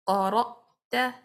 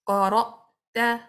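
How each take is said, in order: Both takes have the same delivery.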